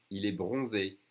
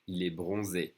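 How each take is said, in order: Both takes have the same delivery.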